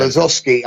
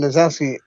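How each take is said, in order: First: Lazowski with an "aw" sound, "la-ZOSS-ki"; alternate pronunciation. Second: Lazowski with "ow" in the middle; alternate pronunciation. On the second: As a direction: say Lazowski as "la-ZOW-ski". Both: Shown as a demonstration. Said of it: "telling me off for pronouncing it".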